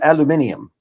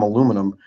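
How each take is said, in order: First: It is pronounced the European way. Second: It is pronounced the American way.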